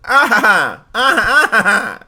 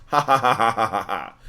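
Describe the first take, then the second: First: High, loud cartoon villain cackle; Mandark laugh. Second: Lower, flat mocking ha-ha-ha that fades; just say the ha's, no villain flair; plain ha ha. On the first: Streamer demoing the Mandark laugh for chat, high hammed-up cackle. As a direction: cackle like a gloating cartoon genius. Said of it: "Can anybody do the Mandark?". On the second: Streamer contrasting chat's laugh with Mandark's, flat ha-ha. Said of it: "it wasn't one of those".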